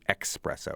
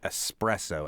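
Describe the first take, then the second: First: The word starts with an 'ex' sound. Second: The word starts with an 'es' sound. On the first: This is the less standard form. "as opposed to espresso" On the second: This is the more standard form. "more standard to say espresso"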